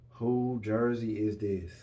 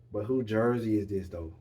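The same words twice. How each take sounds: First: Slow, drawn-out teasing question; slowly dragged teasing ask; slow tease. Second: Said in the usual way. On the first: Real, not acted. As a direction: stretch it out to build suspense.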